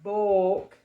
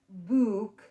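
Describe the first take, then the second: First: The vowel is an aw sound, as in floor. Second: The vowel is a long oo, as in food. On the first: "It's not book, like floor" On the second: "it's not book, like food"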